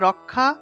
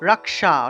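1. এই যুক্তব্যঞ্জনে আলাদা মূর্ধন্য 'sh' ধ্বনি নেই। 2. এই যুক্তব্যঞ্জন ভেঙে k এবং মূর্ধন্য 'sh' হয়। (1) "বাংলায় বললে রক্ষা" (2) "সংস্কৃতে বললে রক্ষা"

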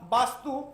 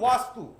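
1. শব্দটি b ধ্বনি দিয়ে শুরু হয়। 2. শব্দটি w ধ্বনি দিয়ে শুরু হয়। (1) "বাংলাতে আমরা বলি বা বাস্তু" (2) "হিন্দিতে বলি ওয়াস্তু"

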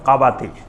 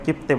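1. এটি তিন শব্দাংশে উচ্চারিত হয়: ka-ba-ti। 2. এটি দুই শব্দাংশে উচ্চারিত হয়: kip-ti। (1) "মূল উচ্চারণ হলো কাবাতি" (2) "ওইটাকে আমরা কিপ্তি বলা হয়"

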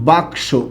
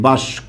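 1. k ধ্বনিটি s ধ্বনির আগে আসে। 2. s ধ্বনিটি k ধ্বনির আগে আসে। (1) "আমরা শব্দ বলি বাক্স।" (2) "অনেকেই আবার এরকম কি বলে? বাস্ক বলে। আগের ক পরে চলে গেছে, পরের স আগে চলে আসছে।"

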